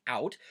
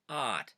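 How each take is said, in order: First: Said in the usual way. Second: "ot" with a flat single ah for "out"; Pennsylvania Dutch vowel. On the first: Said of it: "which in English, of course, is out". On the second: Shown as a demonstration. Explaining the accent to viewers, "ot" said with one open vowel. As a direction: say "ot", out without the glide. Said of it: "might say that as".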